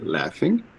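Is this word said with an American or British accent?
American. It is said in an American accent. "In the U S, we say"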